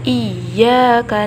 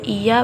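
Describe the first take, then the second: First: The y sound is held long and doubled. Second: The y sound is short and single. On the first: The speaker calls it right. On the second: The speaker calls it wrong. "Kalau iya berarti tidak ada tasydidnya"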